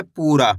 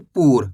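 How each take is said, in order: First: पूरा with a long, stretched "aa" ending; teacher's drawn-out पूरा; final vowel drawn out. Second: पूर ending on the r, lower in pitch; पूर closed on a plain "r"; no final vowel. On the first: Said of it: "खींच के पढ़ा जा रहा है". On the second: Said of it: "अगर रा के अंदर आ की मात्रा नहीं होती". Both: Shown as a demonstration.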